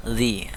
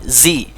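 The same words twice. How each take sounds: First: Softer "zi" from the tongue tip; light, small z on "zi". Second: "zi" with a forceful buzzing z; jolted z. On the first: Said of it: "sedangkan ini agak kecil". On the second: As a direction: thrust out the z of "zi". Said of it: "ini dihentakkan". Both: Shown as a demonstration.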